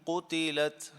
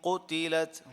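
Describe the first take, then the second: The two takes are said the same way.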